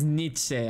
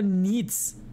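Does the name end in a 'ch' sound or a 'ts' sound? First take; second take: ch; ts. First: The name ends with a 'che' sound. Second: The name ends with a clipped 'ts' sound. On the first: The speaker calls it right. "Ajá, es Nietzsche" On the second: The speaker calls it wrong. "nunca había escuchado Nitz"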